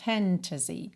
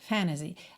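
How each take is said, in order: First: The t sound after the n is fully pronounced. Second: The t sound after the n is dropped. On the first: The word is savored in full. "falando aqui com todos os fonemas" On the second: This is the usual casual American form. "Geralmente um americano falaria"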